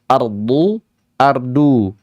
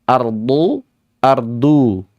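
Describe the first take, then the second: No difference in how they are said.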